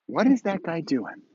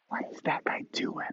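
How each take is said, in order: First: Said in the usual way. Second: Hushed onlooker's whisper; whispered aside. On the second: Acted. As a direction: whisper it as if gossiping about a stranger. Onlooker's question repeated as a whisper.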